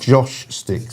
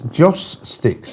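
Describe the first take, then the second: First: The first word ends with an sh sound. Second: The first word ends with a plain s sound. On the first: The speaker calls it wrong. "not Josh Sticks" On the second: The speaker calls it right. "somebody said to me it's Joss Sticks"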